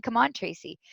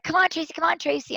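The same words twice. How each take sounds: First: Softer, confused echo of the call; quiet bewildered echo of the shout; puzzled repeat. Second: Higher, cheerful calls across the dock; mock friendly call to a teammate. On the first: Retold or imitated. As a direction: repeat it to yourself, baffled. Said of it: "Why are they saying". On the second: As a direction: call her over to the race. Sailors calling her to race.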